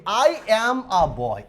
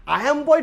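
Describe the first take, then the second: First: Each word drawn out very slowly; slow correct model sentence. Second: Higher, scoffing take on the wrong sentence; mock wrong sentence. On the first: Teacher showing students the correct English sentence, slowly. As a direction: spell out the right sentence word by word. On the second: Teacher mocking the error students make, higher and scornful. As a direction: toss off the mistake as if absurd. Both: Shown as a demonstration. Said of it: "definitely আমি জীবনেও বলি না".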